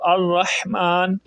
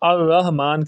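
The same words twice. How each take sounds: First: The h is tense, from mid-throat. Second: The h is a light, soft breath. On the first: The speaker calls it right. "ये जो हा है हलक के दरमियान वाले हिस्से से अदा होती है" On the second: The speaker calls it wrong. "अमूमन लोग सही ... नहीं पढ़ते, अर्रहमान कर देते हैं, जिससे माना तब्दील हो जाता है"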